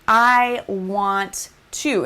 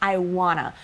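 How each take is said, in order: First: Every word is pronounced fully and clearly. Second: The words are blended into a reduced form. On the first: It sounds more proper and professional. The speaker calls it right. "completely enunciate words like" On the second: It can seem a little unprofessional. The speaker calls it wrong. "instead of saying"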